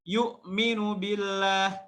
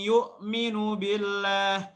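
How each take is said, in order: Both takes have the same delivery.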